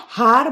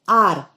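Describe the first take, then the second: First: The word begins with an audible h sound. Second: The word begins with a vowel sound, no h. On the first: The speaker calls it wrong. "Not har" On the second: The speaker calls it right. "it is R. So H is silent over there"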